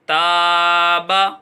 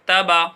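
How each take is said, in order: First: The first vowel is drawn out long. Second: The first vowel is clipped short. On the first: The speaker calls it right. "ताबा ऐसा पढ़ेंगे तो ये सही है" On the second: The speaker calls it wrong. "तबा ऐसा पढ़ दिए तो ये गलत हो जाएगा"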